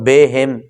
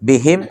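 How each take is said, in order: First: The first vowel is a drawn e sound. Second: The first vowel is a short clear i. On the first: The speaker calls it wrong. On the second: The speaker calls it right.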